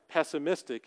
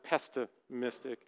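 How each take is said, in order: First: No T sound follows the first syllable. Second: A T sound follows the first syllable. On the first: The speaker calls it right. "there's no T in it" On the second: The speaker calls it wrong. "as I used to pronounce that word"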